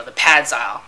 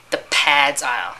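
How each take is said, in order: First: Said in the usual way. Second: "pads aisle" repeated slowly in disbelief; incredulous repeat. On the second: Real, not acted. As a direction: echo "The pads aisle" slowly, as if you can't believe it. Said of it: "You mean, like, you know".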